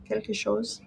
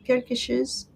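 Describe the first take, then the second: First: "chose" said with a long o, like "shows"; testing pronunciation. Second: "chose" said with a short i, like "shiz"; testing pronunciation. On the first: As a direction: try "chose" softly as "shows". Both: Shown as a demonstration. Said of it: "Is it chose?".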